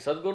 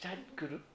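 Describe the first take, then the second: First: It is said with a native Indian accent. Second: It is said with an English accent. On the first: The speaker calls it right. "એ સદગુરુ ન બોલી શકે" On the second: The speaker calls it wrong. "ઇંગ્લિશમાં બોલે"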